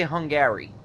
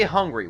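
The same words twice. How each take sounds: First: "Hungary" as hun-GAIR-ee, three syllables; middle syllable sounded. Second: Said in the usual way. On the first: Shown as a demonstration. Driver questioning the spelling of a country, middle syllable fully sounded in "Hungary". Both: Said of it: "we actually put that middle syllable".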